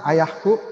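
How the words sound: It is said in a gentle, polite tone. Respectful way of addressing one's father. "wah sopan"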